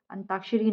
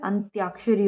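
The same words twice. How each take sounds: First: अंताक्षरी with plain "taa"; wrong pronunciation. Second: अंत्याक्षरी with "tyaa"; correct pronunciation. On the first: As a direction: leave out any y in अंताक्षरी. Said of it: "अंताक्षरी नहीं होता है". (अंताक्षरी में बिना "य" के "ता") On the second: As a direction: sound the y in अंत्याक्षरी. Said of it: "अंत्याक्षरी होता है". (अंत्याक्षरी में "य" की आवाज़ के साथ "त्या") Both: Shown as a demonstration.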